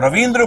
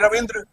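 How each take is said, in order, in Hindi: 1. दूसरे अक्षर में लंबा ee स्वर है। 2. दूसरे अक्षर में छोटा i स्वर है। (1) "अगर बड़ी बोलते तो रविंद्र बोलते" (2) "हम बोलते हैं रविंद्र"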